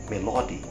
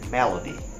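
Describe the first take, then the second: First: The stress falls on a later syllable. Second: The stress falls on the first syllable. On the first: The speaker calls it wrong. "Imagine yourself saying melody instead of" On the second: The speaker calls it right. "instead of melody"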